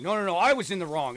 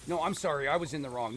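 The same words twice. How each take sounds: First: Higher, louder insistent rebuttal; mock arguing back. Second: Lightly acted insistent apology; mock apology argument. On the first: Second Canadian arguing over who was wrong, higher and louder mock insistence. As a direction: cut in harder to claim the blame. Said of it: "then we just start arguing". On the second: Canadian claiming blame in a polite argument, lightly acted apology. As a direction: mildly insist on taking the blame. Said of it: "we have arguments over".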